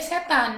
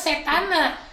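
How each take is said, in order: First: The word ends on the consonant n. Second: The word ends with an added final a. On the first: The speaker calls it wrong. "jadinya setan" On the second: The speaker calls it right. "yang dimaksud adalah setana"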